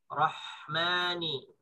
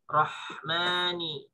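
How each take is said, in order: First: The h sound flows out with breath. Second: The same.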